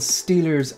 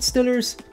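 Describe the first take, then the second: First: The first vowel is a long 'ee' sound. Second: The first vowel is a short 'ih' sound. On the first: This is the general way to say the team name. "I think they're called Steelers" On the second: This is how locals of the team's city say it. "if you're from Pittsburgh, you pronounce it Stillers"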